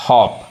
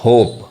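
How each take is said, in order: First: हॉप said with a short open aw, like hop; teacher's short-vowel model. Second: होप said with a long closed oh, like hope; teacher's long-vowel model. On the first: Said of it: "दो consonant के बीच में जब ओ आएगा तो वो ओ पढ़ाता है". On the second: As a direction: let the oh in होप ring long. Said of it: "लेकिन इस ई के चलते क्या पढ़ाएगा?". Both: Shown as a demonstration.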